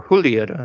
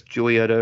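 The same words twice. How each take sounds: First: "Julieta" with the J said as H; Spanish J pronunciation. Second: "Julieta" with an English J sound; English J pronunciation. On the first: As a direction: say "Julieta" starting like "who". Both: Shown as a demonstration. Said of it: "however you pronounce it".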